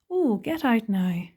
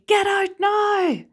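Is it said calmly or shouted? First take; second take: calmly; shouted. First: It is said calmly, without urgency. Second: It is shouted loudly and urgently.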